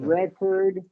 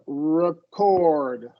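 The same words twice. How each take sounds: First: The stress is on the first syllable. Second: The stress is on the second syllable. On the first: It is used as a noun. "schwa R in the noun form" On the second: It is used as a verb. "And verb record"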